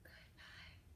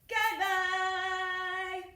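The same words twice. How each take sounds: First: It is said very quietly. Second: It is said very loudly.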